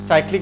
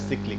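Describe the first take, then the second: First: The first syllable has an 'eye' vowel. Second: The first syllable has a short 'i' vowel. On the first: This is the usual pronunciation. "इसे general साइक्लिक बोला जाता है" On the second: This is a less common alternative pronunciation. "ये pronunciation इसका सिक्लिक भी होता है"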